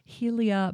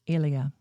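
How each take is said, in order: First: The name begins with an h sound. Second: The name begins with a vowel sound. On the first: The speaker calls it wrong. "not Helia" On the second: The speaker calls it right. "it's Elia"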